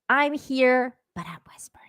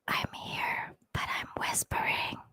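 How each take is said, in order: First: It is said in a normal voice. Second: It is said in a whisper.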